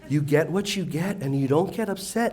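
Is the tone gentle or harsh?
gentle. It is said in a soft, loving tone. "My precious"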